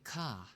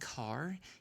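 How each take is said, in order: First: The R at the end is silent. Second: The R at the end is pronounced. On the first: "You make the A R kind of like silent" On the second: "instead of saying car"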